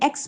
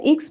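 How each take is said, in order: First: "एक्स" said as "eks", open e; "ex" reading. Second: "एक्स" said as "iks", short i; "ix" reading. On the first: Teacher telling students the new reading, "एक्स" pronounced "eks". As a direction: start "एक्स" on an open "e" vowel. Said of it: "लेकिन यहाँ पे हमने एक्स पढ़ना है". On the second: Teacher recalling the earlier reading, "एक्स" pronounced "iks". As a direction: start "एक्स" on a short "i" vowel. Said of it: "एक्स पढ़ रहे थे". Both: Shown as a demonstration.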